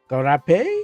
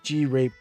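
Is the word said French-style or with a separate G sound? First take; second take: French-style; separate G. First: It is said with a French-style pronunciation. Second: The G is said apart before rape. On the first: "Is it French?"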